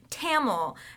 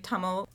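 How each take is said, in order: First: The word is drawn out and stretched. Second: The word is said short, not stretched. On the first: The speaker calls it wrong. "It was like just a way she really dragged it out too" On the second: The speaker calls it right. "teach people how to properly pronounce that word"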